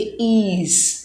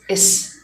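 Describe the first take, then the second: First: The vowel is long, like in ease. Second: The vowel is short, like in is. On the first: The speaker calls it wrong. "Some people say ease, which is wrong" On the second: The speaker calls it right. "this is is"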